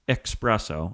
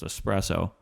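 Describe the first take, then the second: First: The word begins with an 'ex' sound. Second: The word begins with an 'es' sound. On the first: The speaker calls it wrong. "There's no X in espresso" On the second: The speaker calls it right. "So it's espresso"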